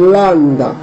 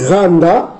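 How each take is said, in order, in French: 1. Le mot commence par un son L. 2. Le mot commence par un son R. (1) "vous remplacez le R par le L, selon ... les exigences du paléo-hébreu" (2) "comme on le prononce ici, ... la prononciation mazorette"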